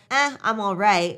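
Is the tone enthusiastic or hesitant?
hesitant. The voice sounds hesitant and low in energy. The speaker is not really all right. "there's the there that makes you pause"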